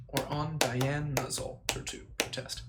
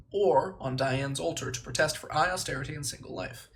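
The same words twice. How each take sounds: First: Diana's said slowly with the full final a; slow careful Diana's; corrected Diana's. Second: Diane's said as Diane, no final a; Diane's with the name cut short; reading it as Diane's by mistake; misread Diane's. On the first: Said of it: "Diana, not Diane". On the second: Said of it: "not Diane". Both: Shown as a demonstration.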